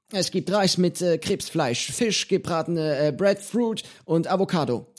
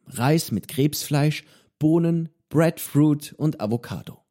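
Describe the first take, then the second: First: Menu listed in Johnny's high voice, hesitant. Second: Said in the usual way. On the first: Acted. Johnny telling the boy the dinner, high and halting. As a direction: list the dishes as the old pirate.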